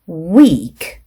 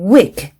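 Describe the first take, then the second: First: The vowel is drawn out long. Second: The vowel is said short. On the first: The speaker calls it right. "장음에" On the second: The speaker calls it wrong. "길게 발음해야 될 것을 짧게 발음했다든지"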